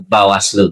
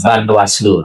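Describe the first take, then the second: First: No n sound follows the first syllable. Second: An n sound follows the first syllable. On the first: The speaker calls it right. "harusnya Bawaslu" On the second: The speaker calls it wrong. "sering salah melafalkan"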